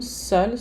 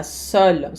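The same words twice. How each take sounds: First: "seul" said as sœl again; "seul" exactly as before, open œ, final l; same pronunciation. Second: "seul" said as sœl, same as seule; "seul" with an open œ and a clear l; same pronunciation. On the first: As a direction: feminine "seul" sounding like the masculine. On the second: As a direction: masculine "seul" sounding like the feminine. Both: Shown as a demonstration. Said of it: "A pronúncia não muda".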